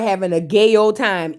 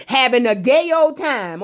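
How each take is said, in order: First: Said in the usual way. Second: "gay" lifted and leaned on; pointed pun. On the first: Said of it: "Insert pun". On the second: Shown as a demonstration. Host wants the pun noticed, pointed stress on "gay". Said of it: "I want the pun in there".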